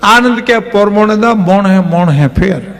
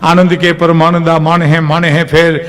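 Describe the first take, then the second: First: It is said in a Mehsana accent, 'man' becoming 'mon'. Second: It is said in a Kathiyawadi (Saurashtra) accent. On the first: "ત્યાં મહેસાણા જઈને કેમ ગાય ખબર?" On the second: "આપણા જે બેદુહા છે ને"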